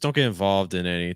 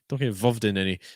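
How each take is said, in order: First: The vowel in involved is opened and lengthened. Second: The vowel in involved is short and clipped. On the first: The speaker calls it right. "you could open up your vowel" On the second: The speaker calls it wrong. "Because it's just so fast"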